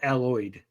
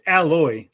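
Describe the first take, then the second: First: The name ends with a d sound. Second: The name ends without a d sound. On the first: The speaker calls it wrong. "not alloyed" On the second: The speaker calls it right. "It's alloy"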